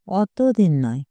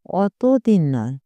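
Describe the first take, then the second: No difference in how they are said.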